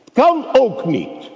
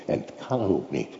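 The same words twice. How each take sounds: First: Much higher and louder, stressing kan; loud repeat. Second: Softer, low, kan stressed; quiet aside. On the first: Preacher driving the point home to the congregation, loud. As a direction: cry it out to the hall. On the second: Preacher half to himself before repeating, quiet. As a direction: say it under your breath. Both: Acted.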